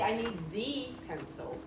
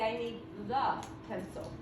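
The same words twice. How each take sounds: First: The vowel in the is full. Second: The vowel in the is a reduced uh. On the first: The speaker calls it wrong. "I don't say" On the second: The speaker calls it right. "I say ... It has a schwa. It says uh"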